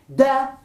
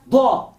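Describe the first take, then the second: First: "Da" with light plain d and open a; soft D. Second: "da" with heavy emphatic d, dark o-like vowel. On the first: Teacher contrasting two letters, soft light D in "Da". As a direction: say "Da" like the D in dedo. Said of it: "Dal es la D de dedo, suave". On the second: Teacher contrasting two letters, emphatic D in "da". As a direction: press the "da" into a backed Arabic dad. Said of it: "dad enfática". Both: Shown as a demonstration.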